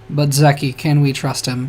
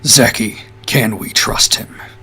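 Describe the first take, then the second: First: It is said in a normal voice. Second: It is said in a deep voice.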